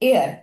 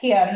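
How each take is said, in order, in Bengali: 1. শব্দটি স্বরধ্বনি দিয়ে শুরু হয়। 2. শব্দটি h ধ্বনি দিয়ে শুরু হয়। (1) "এয়ার উচ্চারণ যেহেতু আমরা করছি এ" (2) "হেয়ার নয়"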